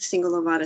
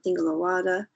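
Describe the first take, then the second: First: It begins with s and has a v sound. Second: It begins with th and has a w sound. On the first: "I may say like the Singhalavada Sutta, just like that" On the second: "if I were to pronounce it in Burmese, it would be the S with the T H and the V like a W"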